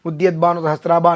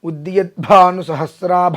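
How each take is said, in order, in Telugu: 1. 'bh' శబ్దాలను ఊపిరి లేకుండా తేలికగా పలుకుతారు. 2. 'bh' శబ్దాలను బలమైన ఊపిరితో ఒత్తి పలుకుతారు.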